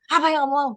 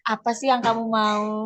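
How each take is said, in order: First: The question is said in a harsh, punishing tone. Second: The question is said in a soft, friendly tone. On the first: The speaker is scolding like a punisher. "tapi kalau penghukum" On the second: The speaker is asking like a friend. "teman kan"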